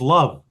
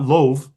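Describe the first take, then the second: First: The vowel sounds like the one in cup. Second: The vowel sounds like the one in cove. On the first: The speaker calls it right. "one is cove and one is love" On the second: The speaker calls it wrong. "It's not loave"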